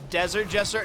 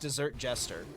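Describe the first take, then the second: First: The first word sounds like desert. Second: The first word sounds like dessert. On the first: The speaker calls it wrong. "I've been mispronouncing it this entire time" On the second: The speaker calls it right. "Desert Jester is actually a pastry chef"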